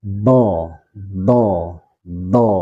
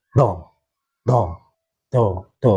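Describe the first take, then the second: First: "do" stretched out as a heavy d; lengthened dhad. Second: "do" cut short like the letter dal; short, wrong dhad. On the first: Teacher correcting the short reading, drawn-out heavy "do". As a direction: prolong each "do" before letting it go. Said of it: "Harus dipanjangkan". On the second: Teacher showing students the faulty reading, short dal-like "do". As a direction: say "do" briefly as a light d, unstretched. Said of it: "tidak dipanjangkan". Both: Shown as a demonstration.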